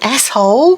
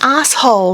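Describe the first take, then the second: First: The first vowel is short, like ass. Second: The first vowel is long, like arse. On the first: This is not how Australians say it. The speaker calls it wrong. "not an asshole" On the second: This is the Australian way of saying it. The speaker calls it right. "We say arse"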